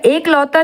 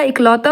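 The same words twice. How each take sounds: First: एक लौता opening on long e; wrong form. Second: Said in the usual way. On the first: Shown as a demonstration. Teacher rejects a misspelling, long e in एक लौता. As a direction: say एक लौता with ek, not ik. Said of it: "एक लौता नहीं होता". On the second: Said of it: "इकलौता होता".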